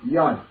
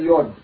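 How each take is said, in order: First: The vowel is an open 'a' sound. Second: The vowel is a rounded 'o' sound. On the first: The speaker calls it right. "it's always pronounced in Yiddish with a fatah" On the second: The speaker calls it wrong. "Never say Yod"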